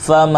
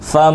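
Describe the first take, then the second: First: The n sound is hidden in a nasal hum. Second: The same.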